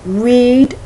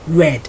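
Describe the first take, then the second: First: It does not sound like the color red. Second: It sounds exactly like the color red. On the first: It is the present or simple form. "infinitive, simple form, read" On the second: It is the past tense or past participle. "pronounced like R E D, red"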